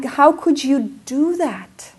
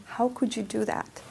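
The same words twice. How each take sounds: First: Slow, loud, high accusing question; self-scolding. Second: Much softer repeat of the accusation; quiet echo. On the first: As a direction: drag out the blame on yourself. Self-blame over lost camera. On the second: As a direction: let the blame sink down to a murmur. Quiet echo of self-blame. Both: Retold or imitated.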